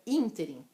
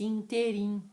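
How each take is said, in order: First: The stress is on the first syllable. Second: The stress is on a later syllable. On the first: The speaker calls it right. "as pessoas falam é ínterim" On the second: The speaker calls it wrong. "tem muita gente que fala errado"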